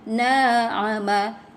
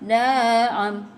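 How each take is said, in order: First: The word ends on a short final vowel. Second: The word stops on its final consonant. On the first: The reading continues without stopping. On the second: The reader stops on this word.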